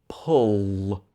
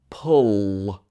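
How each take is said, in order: The two takes are said the same way.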